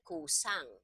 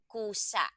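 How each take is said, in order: First: "kusang" with the last vowel running on into ng; no cut, linker added. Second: "kusa" with the last a stopped abruptly; final vowel cut short. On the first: Teacher shows the accent going away, "kusang" with uncut ng ending. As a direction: let the end of "kusang" hum out on ng, uncut. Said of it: "If you add N G". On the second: Teacher gives a malumi example, "kusa" with final vowel cut short. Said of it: "cut that vowel short". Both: Shown as a demonstration.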